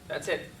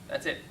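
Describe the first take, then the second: Both takes have the same delivery.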